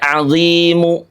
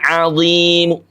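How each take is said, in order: First: The final vowel is pronounced fully and clearly. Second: The final vowel is only faintly, briefly heard. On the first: The speaker calls it wrong. "Tidak azimu" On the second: The speaker calls it right. "Mu-nya terdengar tapi dengan kadar sepertiga harokat saja"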